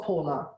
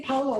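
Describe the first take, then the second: First: "Paula" with the vowel of "law"; Paula with an "aw" sound. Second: "Paula" with the vowel of "cow"; Paula with an "ow" sound. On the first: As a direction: say "Paula" as PAW-la. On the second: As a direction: say "Paula" as POW-la. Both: Shown as a demonstration. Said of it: "Do you say Paula or Paula?".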